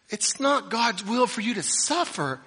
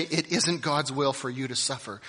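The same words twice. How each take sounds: First: Hammed-up, loud, high mock of a prosperity preacher; mocking quote. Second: Said in the usual way. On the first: Preacher mocking the claim to his congregation, loud high sneer. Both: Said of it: "and then say".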